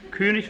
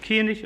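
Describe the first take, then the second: First: The first vowel is said with rounded lips. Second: The first vowel is said with spread lips. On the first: This is the standard German form. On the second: This is the Berlin dialect form.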